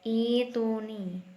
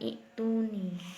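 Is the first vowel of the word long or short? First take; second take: long; short. First: The first vowel is drawn out long. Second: The first vowel is kept short. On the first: The speaker calls it right. "Ini kan badal, mat badal ya" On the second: The speaker calls it wrong. "bukan ituni"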